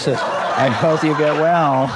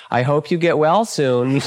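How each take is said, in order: First: Drawn out and slower, laughing through it; amused slow mock blessing; slow teasing repeat. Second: Teasing well-wish through a chuckle; playful mock sympathy, chuckling. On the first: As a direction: stretch the wish out with a laugh. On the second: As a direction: wish them well while laughing. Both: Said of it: "he'd look at him and he'd say".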